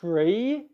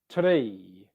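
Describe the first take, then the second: First: The R is smooth, tongue not touching the roof. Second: The R is tapped, tongue touching the roof. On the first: The speaker calls it right. "so tree is tree" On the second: The speaker calls it wrong. "It's not tree"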